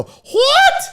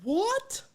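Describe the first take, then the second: First: Very high, loud screech; mock shriek of disbelief, rising; shocked aunt. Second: High, quiet squeak of disbelief; mock-shocked falsetto, softly; shocked reaction. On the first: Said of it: "If you said something that shocked her, she'd go". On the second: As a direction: let it rise into a small high squeak. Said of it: "my Aunt Diane used to do that".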